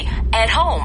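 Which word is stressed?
home. The stress falls on the word home. The speaker calls it right. "at home 하지"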